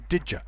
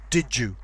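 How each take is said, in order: First: The d and y merge, ending in a schwa. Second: The d and y merge into a j sound. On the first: "Also, did ya" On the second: "can become did you"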